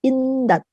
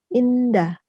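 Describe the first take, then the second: First: The word ends in a t sound. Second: The word ends in a vowel. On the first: The speaker calls it wrong. "H di akhir akan menjadi T" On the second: The speaker calls it right. "itu sama seperti indah"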